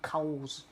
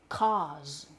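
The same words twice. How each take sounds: First: The vowel is short. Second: The vowel is long. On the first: The speaker calls it wrong. "not cause" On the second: The speaker calls it right. "that is K O Z in pronunciation"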